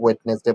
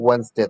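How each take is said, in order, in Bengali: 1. প্রতিটি অক্ষর বানান অনুযায়ী উচ্চারিত হয়। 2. কিছু অক্ষর নীরব থাকে, যেমনটি সাধারণত উচ্চারিত হয়। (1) "আপনার বানানটা উচ্চারণ মনে রাখার ক্ষেত্রে ওয়েডনেসডে বলতে পারেন" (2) "কিন্তু এটার উচ্চারণ হবে ওয়েডনেসডে"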